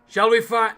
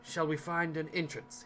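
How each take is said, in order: First: It is said loudly. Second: It is said quietly.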